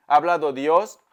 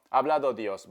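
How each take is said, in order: First: "Ha hablado Dios" said much louder, "Ha" pushed hard; emphatic declaration. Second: Said in the usual way. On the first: Real, not acted. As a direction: proclaim it like a revelation. Repeats the phrase for emphasis. (proclamación enfática y fuerte)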